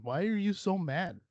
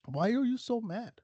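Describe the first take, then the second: First: Said in the usual way. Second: Same question asked again, pitched up with a teasing lilt; higher mocking repeat. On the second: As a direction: tease them, higher. Mocking angry commenters.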